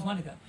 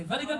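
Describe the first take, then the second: First: Vinegar begun with W, "winegar"; Gullah pronunciation. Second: Said in the usual way. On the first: Shown as a demonstration. Guide contrasting standard and Gullah, Gullah W sound. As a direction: put a W in place of the V in vinegar. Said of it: "Gullah says vinegar". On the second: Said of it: "You say vinegar".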